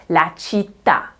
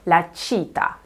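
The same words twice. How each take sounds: First: LA CITTÀ with the weight on final TÀ; stress on last syllable. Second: LA CITA with the weight on CI; stress on first syllable. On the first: Teacher showing what the accent does, stress on TÀ in città. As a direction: land firmly on TÀ in città. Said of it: "the stress moves over to the last syllable". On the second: Teacher showing it without the accent, stress on CI in cita. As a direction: lean on CI, let TA fall away. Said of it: "you would expect that to be pronounced". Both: Shown as a demonstration.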